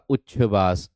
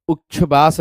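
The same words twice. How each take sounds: First: उच्छ्वास opening with uch-chh; careful low-voiced उच्छ्वास with doubled ch; corrected उच्छ्वास. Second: उच्छ्वास said as a wrong example; mispronounced उच्छ्वास. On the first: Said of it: "उच्च, ये वाला". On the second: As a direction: show the faulty way of saying उच्छ्वास. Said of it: "उच्छ्वास नहीं मेरे दोस्त". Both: Shown as a demonstration.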